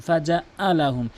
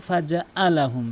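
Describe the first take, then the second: The two takes are said the same way.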